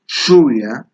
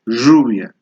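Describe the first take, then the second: First: The word begins with an 'sh' sound. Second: The word begins with a 'j' sound. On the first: "I say shuya" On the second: "my dad says ruya"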